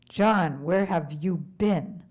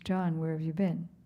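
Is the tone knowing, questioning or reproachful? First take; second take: reproachful; questioning. First: It sounds reproachful, scolding John for going. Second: It sounds like a plain, curious question.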